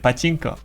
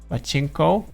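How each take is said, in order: First: No extra emphasis on the 'chinko' part. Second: Heavy emphasis falls on the 'chinko' part. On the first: It names the game. The speaker calls it right. "You just say pachinko" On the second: It sounds like a rude word. The speaker calls it wrong. "don't put too much emphasis on the the chinko"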